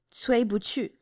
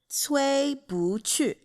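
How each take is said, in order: First: Cui Bu Chu run together as one name; joined pronunciation demo. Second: Cui Bu Chu syllable by syllable, Cui level, Bu rising, Chu falling; very slow teaching model of Cui Bu Chu; slow tone demo. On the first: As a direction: say Cui Bu Chu connected, tones intact. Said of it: "how to pronounce the main characters' names". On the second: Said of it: "it turns to the second tone". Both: Shown as a demonstration.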